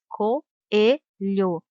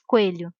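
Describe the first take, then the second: First: The o and e are separate full syllables. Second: The o and e merge into one syllable. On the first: The speaker calls it right. "as duas vogais têm som forte e demorado" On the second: The speaker calls it wrong. "Não se diz coelho"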